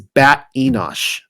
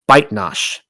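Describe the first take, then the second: First: The name is said with three syllables. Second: The name is said with two syllables. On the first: This is the more reliable form of the name. The speaker calls it right. "a far more reliable pronunciation is Bat Enosh" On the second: This is the form used in the version being read. The speaker calls it wrong. "the version I am delivering only calls her Baitnash"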